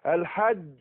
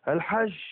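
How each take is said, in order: First: The final j is hard, with the breath held. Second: The final j leaks breath and sounds like sh. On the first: The speaker calls it right. "شوف انحبس الايه؟ النفس لقوة الاعتماد على المخرج" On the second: The speaker calls it wrong. "ما اقولش الحج الحج كده... مفيش انحباس"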